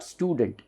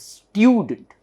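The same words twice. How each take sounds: First: Said in the usual way. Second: STUDENT as STYOO-dunt, higher on STYOO; "student" with a stressed "styoo"; correct pronunciation. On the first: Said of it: "It is not student". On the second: Shown as a demonstration. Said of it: "it is student".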